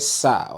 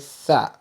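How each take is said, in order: First: It starts with a hissing s sound. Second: It starts with a th sound, tongue between teeth. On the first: The speaker calls it wrong. "Don't say sa" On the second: The speaker calls it right. "with your tongue outside"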